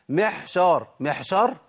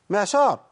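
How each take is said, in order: First: "محشار" بحاء مهموسة بدل العين; ain turned to ha. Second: "معشار" بعين مجهورة واضحة; clear ain. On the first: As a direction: breathe the ain of معشار into ha. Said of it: "ولا أقول". (عين مقلوبة حاء) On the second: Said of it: "هي محشار ولا معشار؟". (العين الصحيحة) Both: Shown as a demonstration.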